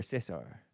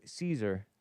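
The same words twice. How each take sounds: First: "Cesar" said as SESS-ar; Spanish-style Cesar. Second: "Caesar" said as SEE-zer; English-style Caesar. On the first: Host correcting the name, "Cesar" said SESS-ar. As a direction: say "Cesar" with short e and an S. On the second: Host thanking a viewer, "Caesar" said SEE-zer. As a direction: say "Caesar" with long ee and a Z. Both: Real, not acted. Offers two versions of a name.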